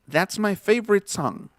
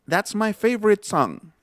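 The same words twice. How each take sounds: No difference in how they are said.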